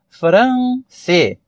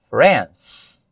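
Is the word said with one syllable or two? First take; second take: two; one. First: The word is said with two syllables. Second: The word is said with one syllable. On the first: The speaker calls it wrong. "como brasileiro, falante do português, pensar France. Não" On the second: The speaker calls it right. "É uma pronúncia só"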